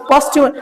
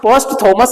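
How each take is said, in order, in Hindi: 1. बीच का हिस्सा 'ty' आवाज़ से बोला जाता है। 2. बीच का हिस्सा 'th' आवाज़ से बोला जाता है। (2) "पोस्ट थॉमस नहीं"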